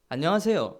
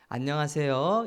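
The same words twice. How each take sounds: First: It is said in a sharp regional dialect. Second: It is said in a soft standard Seoul accent. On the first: It sounds harsh, as if not peaceful. "이러거든, 사투리는. 안녕한 것 같지 않잖아요" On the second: It sounds gentle and polite. "이렇게 해야 되는데"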